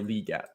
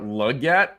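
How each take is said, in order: First: The first syllable sounds like 'lee'. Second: The first syllable sounds like 'leg'. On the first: The speaker calls it right. "like L E E" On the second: The speaker calls it wrong. "is not correct"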